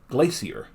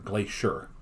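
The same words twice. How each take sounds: First: It is said with the British pronunciation. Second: It is said with the American pronunciation. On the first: "When I was there, the few times I heard it, it was like glacier" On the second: "we pronounce it like G L A Y S H E R"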